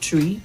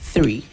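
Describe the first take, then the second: First: It begins with a plain t sound. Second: It begins with a th sound. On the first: The speaker calls it wrong. "If you said tree, like you said, it means something else. So not tree" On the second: The speaker calls it right. "but three"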